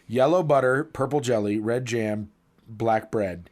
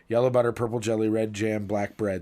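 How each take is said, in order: First: It is said at a normal speed. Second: It is said fast.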